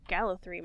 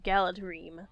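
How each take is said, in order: First: The middle consonant is a soft th sound. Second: The middle consonant is a hard d sound. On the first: The speaker calls it right. "D H is pronounced like a soft T H" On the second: The speaker calls it wrong. "and not Galadreme"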